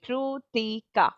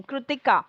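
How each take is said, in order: First: KRITIKA broken slowly into three parts, Kri-ti-ka; syllable by syllable. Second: Said in the usual way. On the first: Shown as a demonstration. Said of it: "There are three parts in my".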